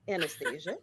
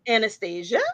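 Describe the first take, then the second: First: It is said in a put-on mommy voice. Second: It is said in her normal voice.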